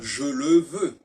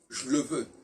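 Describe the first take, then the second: First: The vowels in 'je le' are fully pronounced. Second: The vowels in 'je le' are reduced or dropped. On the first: The speaker calls it wrong. "on ne doit pas dire je le veux" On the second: The speaker calls it right. "on doit dire je le veux"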